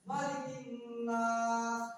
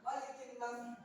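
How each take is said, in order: First: The last vowel is held long. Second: The last vowel is said short. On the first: The speaker calls it right. "panjang ya?" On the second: The speaker calls it wrong.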